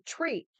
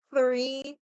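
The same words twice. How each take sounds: First: "Tree" with a plain t and no th sound, voice raised high. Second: "Three" with the tongue between the teeth for th. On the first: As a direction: mimic the coworker's "Tree" with a flat t. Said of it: "difference between tree and three". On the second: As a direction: show how "Three" should sound, with th. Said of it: "you need to use your tongue". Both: Shown as a demonstration.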